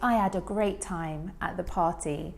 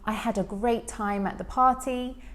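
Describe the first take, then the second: First: The H at the start of 'had' is dropped. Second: The H at the start of 'had' is pronounced. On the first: "the reduction of the H" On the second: "instead of saying"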